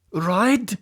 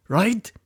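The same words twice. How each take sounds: First: Right? high and falling hard; demanding right. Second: Right? with a sharp high rising tune; mocking right. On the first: Boss pressing his henchmen, Right? falling. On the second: Boss taunting his henchmen, right? rising high. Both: A narrator's reading. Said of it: "the angry Russian leader".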